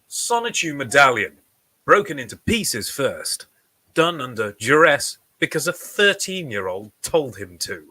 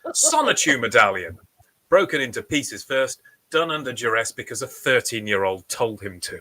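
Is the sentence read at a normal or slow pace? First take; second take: slow; normal. First: The sentence is read slowly and deliberately. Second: The sentence is read at a normal pace.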